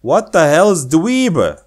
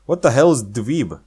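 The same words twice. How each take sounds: First: Slower, louder puzzled repeat; puzzled emphasis. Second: Said in the usual way. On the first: Shown as a demonstration. Rereading the odd word dweeb, baffled.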